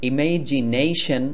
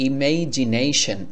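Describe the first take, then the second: The two takes are said the same way.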